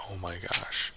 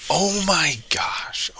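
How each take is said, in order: First: Said in the usual way. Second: High, slow breathy oh my gosh; exasperated gasp. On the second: Real, not acted. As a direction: gasp it out in dismay. Reacts to loss.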